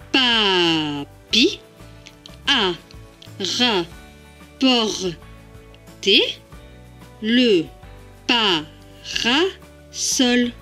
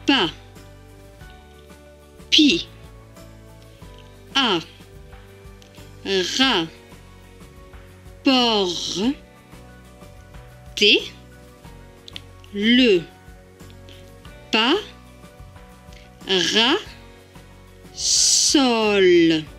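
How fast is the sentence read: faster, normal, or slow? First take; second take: faster; slow. First: It is read faster, still split into syllables. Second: It is read very slowly, syllable by syllable. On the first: "plus rapidement" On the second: "tout doucement"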